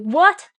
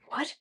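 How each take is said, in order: First: It is said loudly. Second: It is said quietly.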